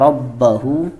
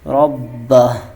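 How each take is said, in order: First: The word ends with a full 'hu' vowel. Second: The word ends with a bare 'h' sound. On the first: The reading continues without stopping. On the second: The reader stops on this word.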